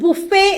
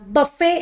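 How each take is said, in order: First: The first vowel sounds like 'oo'. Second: The first vowel sounds like 'uh'. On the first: The speaker calls it wrong. "ചിലർ ബുഫേ എന്നും പറയാറുണ്ട്" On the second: The speaker calls it right. "ബ ആണ്. ബഫേ എന്നാണ് അത് pronounce ചെയ്യേണ്ടത്"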